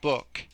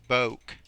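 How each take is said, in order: First: The vowel is not a long O sound. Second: The vowel is a long O sound. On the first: The speaker calls it right. "these ones do not make long vowels" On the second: The speaker calls it wrong. "book is not boke"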